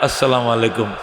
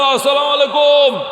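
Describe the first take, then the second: First: It is said gently at normal volume. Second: It is called out loudly and drawn out. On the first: The greeting is given politely up close. The speaker calls it right. "সামনে বয়া সুন্দর করে" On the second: The greeting is shouted from a distance. The speaker calls it wrong. "এটা সালাম দেওয়া যাবো না"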